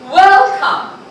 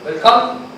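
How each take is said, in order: First: It is said in a warm, inviting tone. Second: It is said in a flat, uninviting tone. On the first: Guests feel invited in. The speaker calls it right. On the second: Nobody would want to come in. The speaker calls it wrong.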